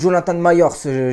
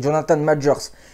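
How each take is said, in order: First: The surname is said like 'Myers'. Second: The surname is said like 'Majors'. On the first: The speaker calls it wrong. "j'avais ignoré la prononciation" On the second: The speaker calls it right. "finalement c'est Jonathan Majors"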